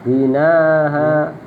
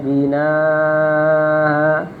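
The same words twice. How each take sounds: First: The vowel before the softened hamza is kept short. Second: The vowel before the softened hamza is drawn long. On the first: "tasil ma'al qasar" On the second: "tasil ma'al mat"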